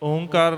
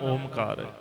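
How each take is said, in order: First: A single nasalized o comes before kar. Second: A clear m sound comes before kar. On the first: "ਓਂਕਾਰ ਨਹੀਂ ਹੈ" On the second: "ਨਾ ਓਮਕਾਰ"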